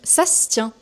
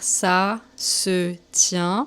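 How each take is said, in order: First: It is said fast with sounds run together. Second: Every syllable is said fully and carefully. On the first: "quand on parle vite, on le prononce" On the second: "on va l'écrire"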